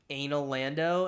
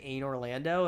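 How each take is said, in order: First: The name ends with the sound Lando. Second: The name ends with the sound Orlando. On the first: "I like start saying Anal Lando and trying to commit to that" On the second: "it's just a, a worse, a worst of both worlds"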